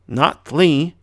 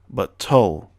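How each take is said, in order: First: It ends with an ee sound after the L. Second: It has an uh sound and ends on L. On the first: The speaker calls it wrong. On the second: The speaker calls it right.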